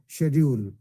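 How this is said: The word is said in a British accent. "Those who are influenced by British accent"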